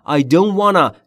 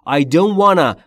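Both takes have the same delivery.

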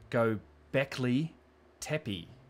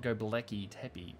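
First: The name is said in a careful Turkish-like way. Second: The name is said in an English-like way. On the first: The speaker calls it right. "I'd like to just on the record say" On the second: The speaker calls it wrong. "which is how I say it, and that so many people get upset about"

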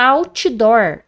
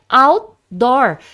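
First: An extra i vowel follows the t. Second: The t is swallowed with no added vowel. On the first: The speaker calls it wrong. "colocam um i onde não tem, fala outdoor" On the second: The speaker calls it right. "é outdoor. Esse T do inglês, ele é engolido"

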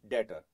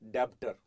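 First: The b is silent in the word. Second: The b is pronounced in the word. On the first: The speaker calls it right. "B is silent when you speak debtor" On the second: The speaker calls it wrong. "not debtor"

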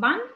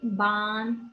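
First: The vowel is short. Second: The vowel is long. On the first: The speaker calls it wrong. "Nu cum ban" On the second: The speaker calls it right. "H-ul lungește, da? ... ci ban"

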